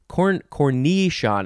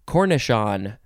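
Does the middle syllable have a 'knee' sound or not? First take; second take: yes; no. First: The middle syllable has a 'knee' sound. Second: The middle syllable has no 'knee' sound. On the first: The speaker calls it right. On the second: The speaker calls it wrong.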